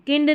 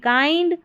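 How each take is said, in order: First: "kind" with a short I, "kinned"; "kind" with the vowel of "kin"; wrong pronunciation. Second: "kind" with an EYE vowel; "kind" as "kynd", long I; correct pronunciation. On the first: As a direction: say "kind" wrongly as "kind" rhyming with "pinned". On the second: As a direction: say "kind" higher, rhyming with "find". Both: Shown as a demonstration. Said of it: "kind नहीं".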